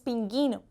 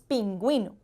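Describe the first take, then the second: First: The u after the g is silent. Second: The u after the g is pronounced. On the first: The speaker calls it wrong. "No decimos pinguino" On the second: The speaker calls it right. "decimos pingüino"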